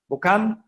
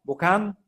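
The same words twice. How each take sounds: Both takes have the same delivery.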